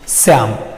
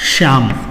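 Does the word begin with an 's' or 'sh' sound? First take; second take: s; sh. First: The word begins with an 's' sound. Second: The word begins with a 'sh' sound. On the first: This is the regional spoken form of the word. "वहां इसे लिखा गया है" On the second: This is the standard form of the word. "सही शब्द है क्या"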